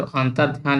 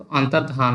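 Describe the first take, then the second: First: "अंतर ध्यान" split into two words, a pause after अंतर; wrong spelling read out. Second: "अंतर्धान" as one word, antardhaan, no break; correct pronunciation. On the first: Teacher reading the students' misspelt form, split apart. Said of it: "यहाँ पर जो अंतर ध्यान लिखा जाता है". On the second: Teacher giving students the correct single word. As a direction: run "अंतर्धान" together as one smooth word. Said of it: "तो अंतर्धान होता है". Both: Shown as a demonstration.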